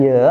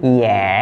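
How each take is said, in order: First: "ye" as yuh, with a schwa; wrong schwa vowel. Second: "ye" as yeh, with open e; open, held "ye", sounding like yeh; correct open vowel. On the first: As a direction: say "ye" with the dull uh vowel. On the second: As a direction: say "ye" with a clear eh vowel. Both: Shown as a demonstration.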